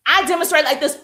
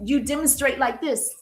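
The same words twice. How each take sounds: First: Louder, shouted extrovert delivery; loud extrovert demo. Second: Said in the usual way. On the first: Shown as a demonstration. Coach showing her own style to viewers, shouting. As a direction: belt it out like a cheerleader.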